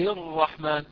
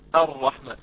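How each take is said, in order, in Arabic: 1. تسقط همزة الوصل وتتصل بالكلمة السابقة. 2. تبدأ الكلمة بهمزة مسموعة. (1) "همزة الرحمن هذه ذهبت وليس لها وجود الآن" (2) "لاحظوا كأنها قطع صار صوتها"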